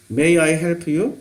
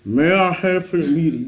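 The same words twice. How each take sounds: First: "May I help you?" very slow, each word spoken from the front of the mouth, Korean accent; Korean-style English. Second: Resonant native English. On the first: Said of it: "우리는 이렇게 말하잖아요". (한국식 영어 발음으로 아주 천천히) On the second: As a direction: let it boom from inside like a native speaker, slowly. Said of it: "이게 속에서 공명돼서 나온다니까". (속에서 울리는 원어민식 영어로 천천히) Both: Shown as a demonstration.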